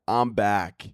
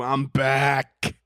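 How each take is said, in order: First: Said in the usual way. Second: Higher, drawn-out comeback announcement; triumphant return. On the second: Real, not acted. Host back from a hiatus, triumphant. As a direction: announce your comeback with a big stretched BACK.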